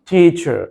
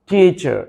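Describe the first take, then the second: The two takes are said the same way.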